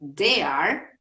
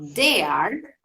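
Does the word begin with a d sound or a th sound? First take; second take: d sound; d sound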